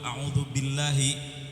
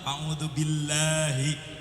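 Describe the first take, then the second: First: The vowels in billahi are kept short. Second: The vowels in billahi are drawn out long. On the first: I seek refuge in God. The speaker calls it right. "yang benar" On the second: I seek refuge in the name of a devil. The speaker calls it wrong. "nggak pakai tasdid kemudian lamnya kepanjangan"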